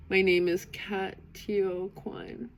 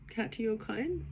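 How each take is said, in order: First: Katio Quine read out slowly, syllable by syllable; careful attempt. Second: Quine tried as Kine, with a questioning rise; retry Quine as Kine and ask if it's right; unsure retry. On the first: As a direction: sound out Katio Quine slowly, unsure of each sound. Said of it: "I already know I'm gonna mispronounce this". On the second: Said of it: "help me and hold my hand". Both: Shown as a demonstration.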